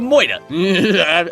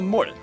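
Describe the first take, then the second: First: It is said in a New York accent. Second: It is said in a plain, neutral accent.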